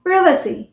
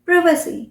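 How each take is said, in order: No difference in how they are said.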